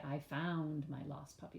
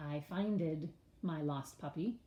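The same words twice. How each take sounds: First: Said in the usual way. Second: "I finded my lost puppy" as the mistake to avoid; wrong form finded. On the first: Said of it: "We say". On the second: Shown as a demonstration. Teacher showing kids the wrong word "finded". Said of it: "We don't say".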